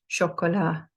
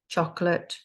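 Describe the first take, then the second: First: It is pronounced with French sounds. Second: It is pronounced with English sounds. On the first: "then the French" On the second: "say the English"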